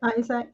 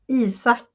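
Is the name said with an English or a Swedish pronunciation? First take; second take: English; Swedish. First: The name is said with an English pronunciation. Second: The name is said with a Swedish pronunciation. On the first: "we have like English uh, pronunciation" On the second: "in Swedish, it's Isak"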